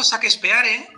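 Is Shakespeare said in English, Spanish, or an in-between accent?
Spanish. The name is said with plain Spanish sounds. It sounds uneducated. "no, eso queda muy mal"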